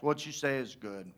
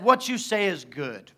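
First: Low, very soft, lame reply; mock the weak answer, barely voiced; terrible comeback. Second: Said in the usual way. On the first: Preacher mocking the prophets' comeback, low feeble mumble. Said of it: "See the terrible comebacks". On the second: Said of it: "all the prophets said".

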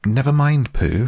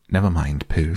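First: High-pitched, impatient interruption. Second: Gentle, level reassurance; comforting. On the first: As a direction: cut in impatiently, pitched well up. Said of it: "said Piglet impatiently". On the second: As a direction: console a friend gently, unhurried. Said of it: "said Piglet comfortingly". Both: A narrator's reading.

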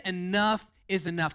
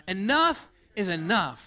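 First: Said in the usual way. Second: Slow, emphatic ENOUGH, full of attitude. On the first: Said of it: "Come on, say it with some attitude". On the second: Shown as a demonstration. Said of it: "say it with some attitude".

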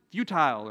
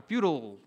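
First: "futile" with a long i, like tile; FUTILE as fyoo-tile. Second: "futile" with a reduced ending, like total; FUTILE as fyoo-tul. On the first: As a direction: say "futile" to rhyme its ending with mile. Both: Shown as a demonstration. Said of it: "Is that even the right way to pronounce it?".

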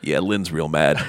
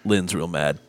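First: Put-on slow, lower drunken repeat; drunk Justin. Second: Put-on low, softer drunken mumble; a lightly voiced drunk confiding; drunk Justin. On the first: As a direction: drag it out like a drunk repeating himself. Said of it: "And I'm like". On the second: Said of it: "and he goes".

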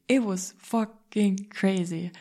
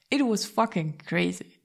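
First: Drawn out even slower and louder; exultant, slower. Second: Slow, emphatic and raised; exultant. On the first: Telling the viewers about the deal, slowed-down exultation. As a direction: stretch it out triumphant. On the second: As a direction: savour every word. Exulting after the news. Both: Real, not acted.

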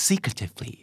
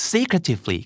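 First: Soft, furtive "secretively"; quiet, confidential "secretively". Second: Said in the usual way. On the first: Shown as a demonstration. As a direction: say "secretively" hushed, as if unseen. Demonstrates meaning of secretively.

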